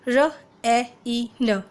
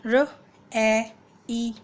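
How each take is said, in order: First: र, ए, ई, न sounded with short vowels; short vowel reading. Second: र, ए, ई read as separate letter names. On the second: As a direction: say ए and ई each as its own letter name. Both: Shown as a demonstration. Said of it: "इस तरीके से पढ़ेगा".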